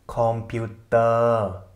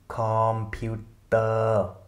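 The two takes are said the same way.

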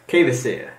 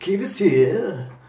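First: The name is said in a normal voice. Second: The name is said in a put-on voice. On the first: "Is that how we're saying it?" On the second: "if we say it in [name] voice, like, Kvasir, like that"

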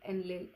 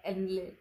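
Both takes have the same delivery.

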